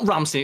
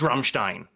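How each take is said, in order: First: The name is said with an English accent. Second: The name is said with a German accent. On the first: The speaker calls it wrong. "I called them Ramstein once" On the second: The speaker calls it right. "you pronounce it with a German accent"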